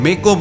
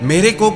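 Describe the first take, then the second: First: The first word is shortened to me. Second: The first word is pronounced fully as mere. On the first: The speaker calls it wrong. "बोलेंगे" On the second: The speaker calls it right. "की जगह"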